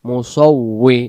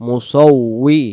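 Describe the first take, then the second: Both takes have the same delivery.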